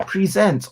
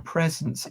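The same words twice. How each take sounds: First: "Present" said pri-ZENT, stress on the second syllable; "Present" as the verb, pri-ZENT, second half stressed; pron: verb. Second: "present" said PREZ-ent, stress on the first syllable; "present" as the noun, PREZ-ent, front stressed; pron: noun. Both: Shown as a demonstration. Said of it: "Present or present".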